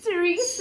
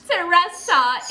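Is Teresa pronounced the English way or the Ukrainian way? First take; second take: English; Ukrainian. First: It is pronounced with an English accent. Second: It is pronounced with a Ukrainian-style accent. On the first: The speaker calls it right. "it's Teresa" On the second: The speaker calls it wrong. "It's not Teresa"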